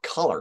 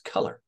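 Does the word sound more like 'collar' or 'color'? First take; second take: collar; color. First: The word sounds like 'collar'. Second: The word sounds like standard 'color'. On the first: The speaker calls it wrong. "it's not color" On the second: The speaker calls it right. "it's color"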